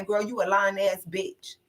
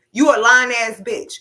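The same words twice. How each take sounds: First: Said in the usual way. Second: Higher and louder, yelled right at her; mock loud call-out. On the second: Finally calling her sister a liar, in a mock loud yell. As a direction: throw it at her like a hammed-up yell. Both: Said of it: "I was waiting on Taseki to say".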